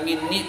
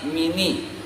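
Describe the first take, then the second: First: The n sound is doubled and held long. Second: The n sound is single and short. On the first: "bukan minni" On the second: "itu namanya khaffafa, meringankan"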